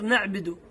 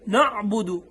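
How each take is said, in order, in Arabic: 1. الباء تليها كسرة. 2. الباء تليها ضمة مستديرة. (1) "تكسر الباء، فش يصير نعبد؟" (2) "هي الصحيحة شنو؟ نعبد. إذا ما أضم الشفتين ما تطلع حركة الضم"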